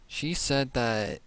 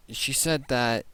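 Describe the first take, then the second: No difference in how they are said.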